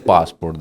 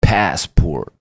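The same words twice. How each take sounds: First: The word is said in an ordinary, casual way. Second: The word is said loudly with exaggerated enunciation. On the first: "he didn't say passport" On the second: "He said passport"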